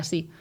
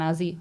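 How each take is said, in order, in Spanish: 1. La S es sorda, sin zumbido. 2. La S es sonora, con zumbido. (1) "en vez de así" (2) "a veces las S son sonoras"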